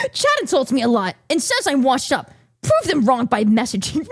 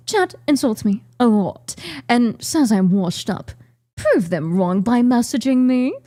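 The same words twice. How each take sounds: First: Said in the usual way. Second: Put-on British accent; Vedal. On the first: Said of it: "I didn't read it like Vito". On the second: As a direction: imitate a Brit reading out his own profile. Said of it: "that's how he'd say it".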